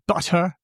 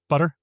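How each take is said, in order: First: The t is a clear, crisp t sound. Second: The t is a soft, flapped sound. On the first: "Do you actually say butter" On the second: "instead of butter?"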